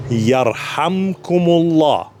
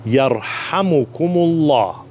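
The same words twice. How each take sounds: First: Yarhamkumullah said slowly and clearly; measured, deliberate Yarhamkumullah; slow teaching recitation. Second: Yarhamukumullah drawn out slowly, syllable by syllable; extra slow Yarhamukumullah for beginners; slower still. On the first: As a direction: lay out Yarhamkumullah for learners. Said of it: "I'll say it one more time". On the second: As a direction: stretch each syllable of Yarhamukumullah. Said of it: "even slower". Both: Shown as a demonstration.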